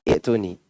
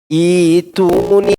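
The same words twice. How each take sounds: First: The first vowel is cut short. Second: The first vowel is drawn out long. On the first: The speaker calls it wrong. "Bukan ituni" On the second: The speaker calls it right. "I dipanjangin ya"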